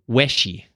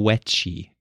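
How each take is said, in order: First: No t sound is heard before the sh. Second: A t sound is heard before the sh. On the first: The speaker calls it right. "The first part of wet. It'd be the W" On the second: The speaker calls it wrong. "Throwing the T in there, it doesn't belong"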